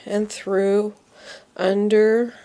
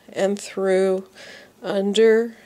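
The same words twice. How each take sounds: The two takes are said the same way.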